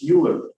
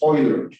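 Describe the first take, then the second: First: The name is read as English letters. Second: The letters EU get their German sound. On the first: The speaker calls it wrong. "it's not pronounced Euler" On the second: The speaker calls it right. "the letters E U in German or in Swiss German are pronounced Euler"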